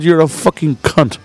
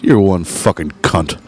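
First: Slow, higher-pitched insistence; emphatic repeated insult. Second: Low, slow and pointed; deliberate insult. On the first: Bar owner answering offended woman, slow emphatic insult. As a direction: spell the insult out slowly, pitched up. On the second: Bar owner to a rude woman, slow deliberate insult. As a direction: deliver the insult slowly, low in pitch. Recounting his own insult. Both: Retold or imitated.

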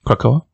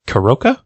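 First: "Krakoa" said as kra-KO-a, rising; corrected name. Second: "Karoka" said as ka-RO-ka; mispronounced name. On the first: Host repeating co-host's correction "Krakoa", questioning echo. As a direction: echo "Krakoa" questioningly, kr together and no k before the final a. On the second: Host misreading the island's name as "Karoka", unsure mispronunciation. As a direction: say "Karoka" with the k sound before the final a. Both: Real, not acted. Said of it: "if you woke up on Krakoa".

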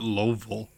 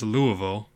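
First: Louisville squashed into LOH-vul; disputed Louisville pronunciation. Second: Louisville said as LOO-uh-vul; preferred Louisville pronunciation. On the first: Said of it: "I don't think you call it". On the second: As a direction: give Louisville three syllables with a silent S. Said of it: "I think it's". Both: Shown as a demonstration.

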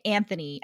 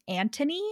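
First: Anthony said as "AN-thuh-nee"; Anthony as spelled, TH sounded. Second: Anthony said as "AN-tuh-nee"; Anthony the audiobook way, T for TH. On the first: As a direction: pronounce Anthony with a soft TH. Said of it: "we've been saying Anthony". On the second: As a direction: pronounce Anthony with a hard T instead of TH. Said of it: "the audiobook narrator ... they say his name". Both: Shown as a demonstration.

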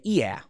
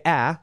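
First: Chicago "yeah", vowel raised into ee-ah; Chicago accent. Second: Said in the usual way. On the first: Shown as a demonstration. Showing listeners the Chicago accent vowel, Chicago accent. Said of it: "a remnant of the Chicago accent". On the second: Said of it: "you don't say".

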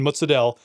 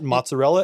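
First: Mozzarella as "moots-uh-DELL"; clipped Italian-American "mozzarella", moots-uh-DELL; Italian-American dropped vowel. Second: Said in the usual way. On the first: Shown as a demonstration. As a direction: say "mozzarella" without its final vowel, ending in a stressed "dell". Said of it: "It's the same thing". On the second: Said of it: "were completely separate cheeses".

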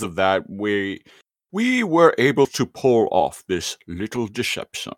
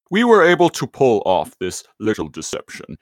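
First: First attempt at Megatron, slipping toward Sean Connery. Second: The better, truer Megatron villain voice. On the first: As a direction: try the villain voice, not quite landing. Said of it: "I thought you were doing Sean Connery at first". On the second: Retold or imitated. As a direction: nail the scheming robot tyrant. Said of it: "that one was much better".

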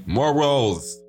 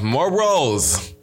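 First: MORALS said alone and drawn out, mock-grand; stressed repeat. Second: Said in the usual way. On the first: Shown as a demonstration. Host repeating his point to listeners, stressing Morals. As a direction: lean hard into Morals, rolling the r. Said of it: "a man of morals".

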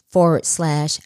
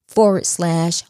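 Both takes have the same delivery.

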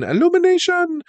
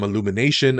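First: Very high, squeaky put-on voice; high-pitched mimicry. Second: Said in the usual way. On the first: Host echoes the studio's name, high squeaky mimicry. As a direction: squeal out ILLUMINATION far above your own pitch.

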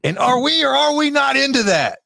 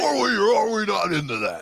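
First: Booming wrestling announcer; loud, high hype call; wrestler voice. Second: Loud announcer voice, laughing; laughing wrestler voice. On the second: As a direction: hype call through a laugh. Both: Pretend. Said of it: "I was like a wrestler for a minute".

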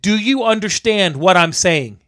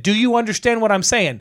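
First: Slow, spelled-out re-enacted question; slow, deliberate. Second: Higher-pitched, heated re-enacted question; retold stern demand. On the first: Electrician checks man understands, slow deliberate demand. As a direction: space the words out for poor English. Retold, spelling it out for non-English speaker. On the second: Electrician scolds man at the panel, retold stern demand. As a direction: press him sternly at normal pace.

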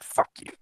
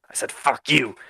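First: Voiceless grudging curse under the breath; begrudging mutter. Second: Higher, emphatic acted retort; defiant repeat. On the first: Acted. Craig grudgingly putting the gold pieces away, begrudging mutter. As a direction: grumble it so he barely catches it. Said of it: "looks back at him begrudgingly". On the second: Craig turning round to the dwarf who challenged him, defiant repeat. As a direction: repeat it clearly, right at him. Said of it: "What'd you say?".

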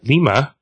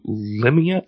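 First: Lima said quickly as LEE-muh; self-corrected pronunciation. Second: Limia said slowly, as LIM-ee-uh; first mispronounced try. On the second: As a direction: stumble on Limia, drawn out. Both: Shown as a demonstration.

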